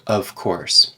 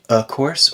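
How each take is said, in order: First: The word 'of' keeps its V sound. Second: The word 'of' is reduced to a bare vowel. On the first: "or of course, both are fine" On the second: "so we could say a course"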